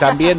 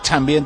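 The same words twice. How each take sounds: First: The word begins with a plain t sound. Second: The word begins with a ch sound. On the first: "en vez de decir también" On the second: "estaban con la che"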